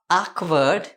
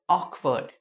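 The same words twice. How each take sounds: First: The first vowel sounds like an open 'a'. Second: The first vowel sounds like a rounded 'o'. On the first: The speaker calls it wrong. "So it is not awkward" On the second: The speaker calls it right. "but awkward. The o sound will be from Kannada"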